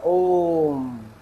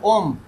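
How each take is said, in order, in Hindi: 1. स्वर को बहुत देर तक खींचा जाता है। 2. शब्द जल्दी और संक्षेप में कहा जाता है। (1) "यानी कि लंबा खींचा जाएगा" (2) "फटाफट"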